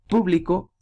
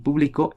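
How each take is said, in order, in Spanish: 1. El acento está en la primera sílaba. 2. El acento está en la última sílaba. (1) "es esdrújula" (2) "es aguda"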